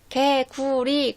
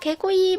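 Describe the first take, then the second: First: The word is said with a clear, careful pronunciation. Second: The word is said with a babyish mispronunciation. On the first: A parent is correcting the child. The speaker calls it right. "꼭 집어서 발음을 교정을 시켜주잖아요" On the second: A small child is still learning to talk. The speaker calls it wrong. "발음이 정확하지가 않잖아요"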